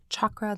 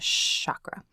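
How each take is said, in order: First: It begins with the 'ch' sound of chalk. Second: It begins without the 'ch' sound of chalk. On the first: The speaker calls it right. "I do pronounce them chakras like chalk or chaturanga" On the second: The speaker calls it wrong. "instead of like chakra"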